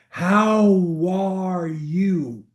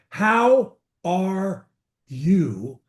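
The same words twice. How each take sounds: First: The words run together as one word. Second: The words are said as separate words.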